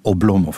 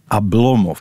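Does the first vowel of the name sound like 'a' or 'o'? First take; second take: o; a. First: The unstressed first vowel sounds like 'o'. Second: The unstressed first vowel sounds like 'a'. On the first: This is the everyday local pronunciation. "zeg maar gewoon Oblomov, met de klemtoon op de tweede lettergreep" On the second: This is the Russian pronunciation. "Die onbeklemtoonde O wordt een A"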